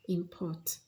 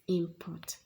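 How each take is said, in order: First: The stress is on the second syllable. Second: The stress is on the first syllable. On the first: It is used as a verb. "This is a verb, and so stress is falling on the second syllable" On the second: It is used as a noun. "stress falls here on the first part, and so this is a noun"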